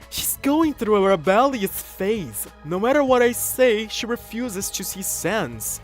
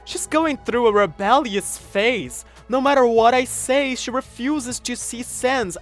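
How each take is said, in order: First: The voice is a distinct male character voice. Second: The voice sounds much like Yoshika's voice.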